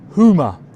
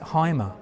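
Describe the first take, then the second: First: The first vowel sounds like 'oo'. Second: The first vowel sounds like 'eye'. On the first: The speaker calls it right. "It's actually pronounced Hoomer" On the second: The speaker calls it wrong. "You don't pronounce it Heimer"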